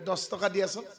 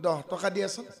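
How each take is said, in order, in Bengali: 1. সংখ্যাবাচক শব্দটি 's' ধ্বনি দিয়ে শেষ হয়। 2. সংখ্যাবাচক শব্দটি 'h' ধ্বনি দিয়ে শেষ হয়। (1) "ভুল কথা ... হটোত চ সোমাই দিয়ে" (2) "দহহে"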